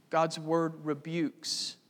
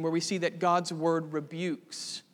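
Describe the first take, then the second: First: "God's word rebukes." said slowly, each word set apart and weighted; slow weighty restatement. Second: Said in the usual way. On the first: Shown as a demonstration.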